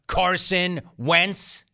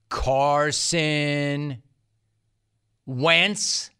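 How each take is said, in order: First: The name is said quickly and loudly. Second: The name is said slowly and deliberately. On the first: "only louder this time" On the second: "am I speaking too quickly? Sorry"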